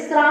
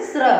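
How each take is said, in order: First: Sra with an open, longer "aa" vowel; contrasted pronunciation. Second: Sra with a short, closed vocalic r; contrasted pronunciation. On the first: Teacher contrasts two letters, sra said with open vowel. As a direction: say sra as in ശ്രീമാൻ's consonant cluster, vowel open. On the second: Teacher contrasts two letters, sra said short with vocalic r. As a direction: say sra short, as at the start of ശൃംഖല. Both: Shown as a demonstration. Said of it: "രണ്ടും തമ്മിലുള്ള pronunciation difference ശ്രദ്ധിക്കുക".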